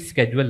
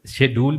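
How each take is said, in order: First: The word begins with an 'sk' sound. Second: The word begins with an 'sh' sound. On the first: This is how everyone says it now. "अब हर कोई स्केड्यूल लफ्ज़ बोलता है।" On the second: This is how people used to say it. "पहले लोग शेड्यूल बोला करते थे।"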